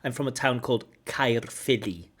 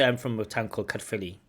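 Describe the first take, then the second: First: The town name is said slowly and very clearly. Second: The town name is said quickly and casually. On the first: The listener can catch the unfamiliar name. The speaker calls it right. "I overpronounce it" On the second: The listener may not catch the unfamiliar name. The speaker calls it wrong. "but you don't understand"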